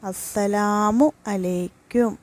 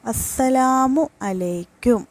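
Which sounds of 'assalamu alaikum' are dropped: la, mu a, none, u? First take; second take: none; none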